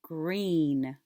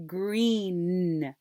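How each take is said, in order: First: Said in the usual way. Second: GREEN with a long N; final sound held. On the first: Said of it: "Now let's do it". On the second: Shown as a demonstration. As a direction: draw out the N that ends GREEN. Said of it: "What's the final sound you captured?".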